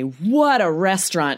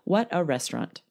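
First: The pitch moves with lively, expressive intonation. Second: The pitch stays flat with little intonation. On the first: The speaker calls it right. "it pulls out this interesting intonation" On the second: The speaker calls it wrong. "It does not work, guys, if you say"

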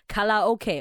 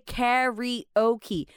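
First: The word ends with the letters O and K. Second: The word ends with a blended 'oakie' sound. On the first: The speaker calls it wrong. "don't say 卡拉OK" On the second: The speaker calls it right. "you gotta say karaoke"

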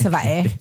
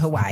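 First: It uses the native Hawaiian pronunciation. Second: It uses the common anglicized pronunciation. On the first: This way shows respect for the place. The speaker calls it right. "Out of respect, ... It's Hawaii" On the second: This is the familiar but disrespectful way. The speaker calls it wrong. "I can't even hit y'all with the Hawaii"

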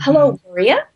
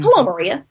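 First: The voice rises at the end like a question. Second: The voice falls at the end like a statement.

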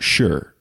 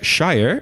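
First: The word is reduced to a short 'shuh'. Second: The word is said fully, like 'shy-er'. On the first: The speaker calls it right. "Shire wordt Shire" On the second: The speaker calls it wrong. "Shire wordt Shire"

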